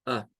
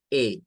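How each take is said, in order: First: "Ah" as a short schwa "uh"; a brief, neutral "uh" sound for "Ah"; sin acento, schwa. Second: "A" as a long "ay"; sonido largo. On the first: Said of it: "y no como a". ("Ah" corta y neutra, schwa) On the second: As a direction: say "A" to rhyme with "day". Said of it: "lo pronuncian con el sonido largo". ("A" larga, como "ei") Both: Shown as a demonstration.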